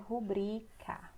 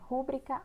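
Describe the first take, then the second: First: The stress is on the second syllable. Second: The stress is on the first syllable. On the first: The speaker calls it right. "o certo é rubrica. Ela é uma paroxítona" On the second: The speaker calls it wrong. "ela não é proparoxítona"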